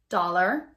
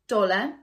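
First: It ends with a clear R sound. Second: It ends in a schwa without an R. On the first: "in American English, ... we do keep the R sound" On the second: "we use it a lot in British English"

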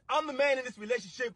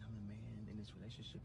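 First: It is yelled loudly. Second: It is said quietly and calmly.

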